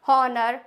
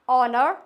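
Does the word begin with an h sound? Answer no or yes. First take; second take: yes; no. First: The word begins with an h sound. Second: The word begins with a vowel, no h. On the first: The speaker calls it wrong. "हॉनर नहीं होता है" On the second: The speaker calls it right. "It's ऑनर"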